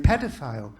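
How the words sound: It is said with an American pronunciation.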